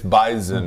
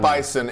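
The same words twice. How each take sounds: First: The middle consonant sounds like a z. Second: The middle consonant sounds like an s. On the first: The speaker calls it right. "It's like a Z" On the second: The speaker calls it wrong. "It's not Bison"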